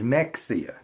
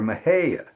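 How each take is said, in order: First: The name has the outsider pronunciation. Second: The name has the local pronunciation. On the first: This is how outsiders assume it is said. "which people think is" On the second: This is how locals say it. "a different way of saying something"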